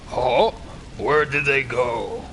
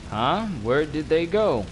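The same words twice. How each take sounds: First: It is said in a Hulk voice. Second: It is said in his normal voice.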